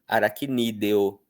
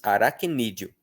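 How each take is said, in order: First: The ending is two syllables with a clear e. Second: The ending is one syllable, e becoming i. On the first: The speaker calls it wrong. "Dificilmente alguém pronunciaria aracnídeo" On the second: The speaker calls it right. "No fluxo da fala, nós pronunciamos aracnídeo"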